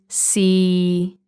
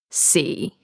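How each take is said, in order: First: The pitch stays flat in the middle range. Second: The pitch stays flat at the very bottom. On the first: "you say it's a flat tone. And in the middle" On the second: "The bottom is"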